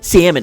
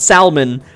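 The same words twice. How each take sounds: First: The L sound is left silent. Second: The L sound is clearly pronounced. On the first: The word is said the way most people say it. The speaker calls it wrong. "No, it's got an L in it" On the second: The word is said the way it is spelled. The speaker calls it right. "I pronounce it salmon. ... Because that's how they're spelled"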